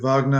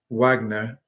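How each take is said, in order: First: The name begins with a V sound. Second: The name begins with a W sound. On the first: It is said like the composer's name. "as in the conduct um, composer" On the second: It is said like the actress's name. "as in Lindsay Wagner"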